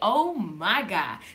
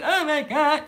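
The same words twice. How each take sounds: First: It sounds calm and reverent, like praise. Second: It sounds anxious and worried.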